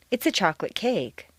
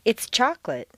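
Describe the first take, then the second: First: CAKE carries the main stress and the fall; stress on the noun. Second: CHOCOLATE stressed on its first syllable, then falling; stress on the adjective. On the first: Teacher modelling descriptive phrases, stress on "cake". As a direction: move the weight from "chocolate" onto "cake". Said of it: "stress will always fall naturally on the noun". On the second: Teacher giving a phrase to repeat, stress on "chocolate". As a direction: put the weight on "chocolate". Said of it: "you'll stress the adjective". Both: Shown as a demonstration.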